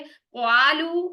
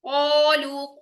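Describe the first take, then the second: First: A 'w' glide comes before a thin 'a'. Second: A heavy 'o' sound is held to the end. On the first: The speaker calls it wrong. "क्वालू ये भी गलत है" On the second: The speaker calls it right. "कोलू को एंड तक को"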